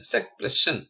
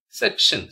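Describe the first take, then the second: First: "sec plus tion" as two separate parts; split into syllables. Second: Said in the usual way. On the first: Shown as a demonstration. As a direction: break between "sec" and "tion". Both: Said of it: "spell the word".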